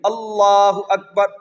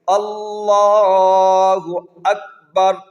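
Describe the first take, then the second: First: It is said short and quick. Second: It is said slowly and drawn out.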